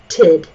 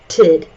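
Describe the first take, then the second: First: The vowel is a short 'i' sound. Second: The vowel is a short 'i' sound.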